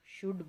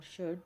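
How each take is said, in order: First: शुड said in its full strong form, vowel clear; strong form of should. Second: Weak-form शुड; weak form of should. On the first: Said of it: "तो ये strong form है". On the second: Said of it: "तो वो weak form है". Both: Shown as a demonstration.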